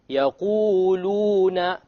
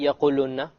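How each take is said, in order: First: The long vowels are held for two counts. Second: The long vowel is cut short. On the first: The speaker calls it right. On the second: The speaker calls it wrong. "You don't say"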